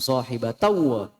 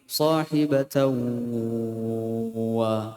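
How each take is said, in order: First: The nasal sound passes straight into 'wa'. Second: The nasal sound is held before 'wa'. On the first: The speaker calls it wrong. "Bukan langsung" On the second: The speaker calls it right. "tapi ... ditahan dulu"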